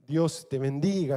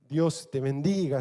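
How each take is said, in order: First: It is said casually, as a formality. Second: It is said casually, as a formality.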